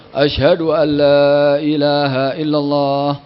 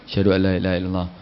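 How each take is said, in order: First: It is said loudly, in full voice. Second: It is said quietly, barely audible.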